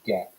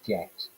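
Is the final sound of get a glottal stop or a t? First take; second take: glottal stop; t. First: The final t is replaced by a glottal stop. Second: The final t is pronounced as a t.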